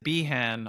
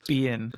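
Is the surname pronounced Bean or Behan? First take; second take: Behan; Bean. First: The surname is pronounced Behan. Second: The surname is pronounced Bean. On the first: The speaker calls it wrong. "They pronounce it Behan on that show" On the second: The speaker calls it right. "my last name is pronounced Bean. So thank you for pronouncing it correctly"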